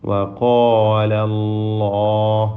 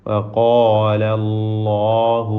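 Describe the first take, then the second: No difference in how they are said.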